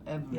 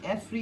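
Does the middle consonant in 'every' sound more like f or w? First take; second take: w; f. First: The middle consonant sounds like a w. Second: The middle consonant sounds like an f. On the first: "like a W" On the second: "you say the F"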